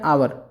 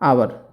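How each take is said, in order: No difference in how they are said.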